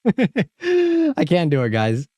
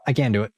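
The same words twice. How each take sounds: First: Very high, slow, drawn-out whine; whiny, dragged-out complaint; whiny wail. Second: Said in the usual way. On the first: Real, not acted. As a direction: wail it like you're about to be sick. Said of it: "It's throwing me off".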